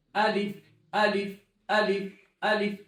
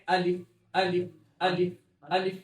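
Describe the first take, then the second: First: الف drawn out very slowly; slow alif. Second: الف said short and clipped; corrected alif. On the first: Teacher showing how alif is said. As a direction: stretch each الف. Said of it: "الف نہیں ہے". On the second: Teacher giving the right sound of alif. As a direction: say الف crisply. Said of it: "کیا ہے؟". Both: Shown as a demonstration.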